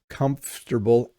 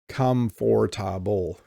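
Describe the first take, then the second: First: The syllables are squeezed together into fewer. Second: Every syllable is pronounced fully and separately. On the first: The speaker calls it right. "we really mush this word together" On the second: The speaker calls it wrong. "We don't say comfortable. Okay, don't say that"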